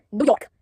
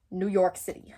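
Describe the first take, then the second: First: Put-on a quick, louder stab at a New York accent; mock New York accent, half-hearted and badly faked; playful bad New York accent, a bit louder; terrible New York accent. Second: Said in the usual way. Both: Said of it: "That was probably a terrible accent".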